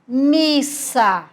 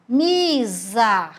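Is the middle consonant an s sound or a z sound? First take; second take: s sound; z sound. First: The middle consonant is a voiceless s sound. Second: The middle consonant is a voiced z sound. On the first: The speaker calls it right. "mas com som de S" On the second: The speaker calls it wrong. "ele ia ficar com o som de Z"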